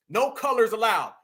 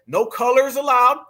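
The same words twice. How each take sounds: First: Said in the usual way. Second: No colors allowed read louder and slower, hitting allowed; loud, slow emphasis. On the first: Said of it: "Look at this right here". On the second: Shown as a demonstration. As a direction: stress allowed with a rising finish. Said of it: "This is it right there".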